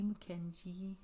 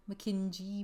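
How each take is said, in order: First: Softer "Mackenzie" with a j sound; phonetic Mackenzie. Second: "Mackenzie" with a soft j sound, as spelled; phonetic Mackenzie. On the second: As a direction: say "Mackenzie" like "Mackinjie". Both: Shown as a demonstration. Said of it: "that's how they wrote it".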